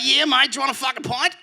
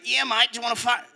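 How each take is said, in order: First: Higher, laughing mock Australian; Australian accent. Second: Lightly higher mock Australian; a hint of a friendly Australian bloke; Australian accent. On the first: Australian dude repeating the offer, mock Australian accent. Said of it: "He's like". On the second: Australian dude offering a pint, mild Australian accent. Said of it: "he's like".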